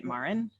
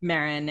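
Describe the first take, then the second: First: Marin said with an "ar" vowel, like "MAR-in"; unsure pronunciation. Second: Marin repeated as "MEHR-in", with an "eh" vowel; corrected pronunciation. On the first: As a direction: ask about the name Marin, saying it MAR-in. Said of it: "do you say it Marin?". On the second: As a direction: take on the author's Marin, said MEHR-in. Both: Shown as a demonstration.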